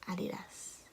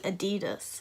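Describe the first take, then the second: First: It is said the British way. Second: It is said the American way.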